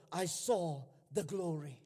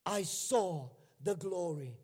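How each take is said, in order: Both takes have the same delivery.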